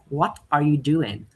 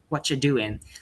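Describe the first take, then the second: First: Each word is said fully and separately. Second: The words are shortened and run together.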